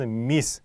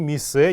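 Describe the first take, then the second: First: The word ends on the consonant sound. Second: The word ends with an added vowel sound. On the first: The speaker calls it right. "а именно мисс" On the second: The speaker calls it wrong. "не миссе никакой"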